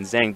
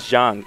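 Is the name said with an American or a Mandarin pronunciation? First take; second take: American; Mandarin. First: The name is said with an American pronunciation. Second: The name is said with a Mandarin pronunciation. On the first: "most people pronounce it here" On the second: "the real like Chinese way"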